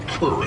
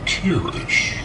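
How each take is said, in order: First: It is said with a plain English pronunciation. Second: It is said with a Dutch-style pronunciation. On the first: "in this country, it's mostly Keurig" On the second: "the proper Dutch pronunciation ... actually sounds more like Kirish"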